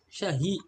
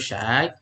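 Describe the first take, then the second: First: An h sound separates the two vowels. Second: The vowels run together with no h sound. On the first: This is how immigrant workers say it. "Orang imigran... nyebutnya tuh syahi" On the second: This is the formal standard form. "yang fushanya tuh syai"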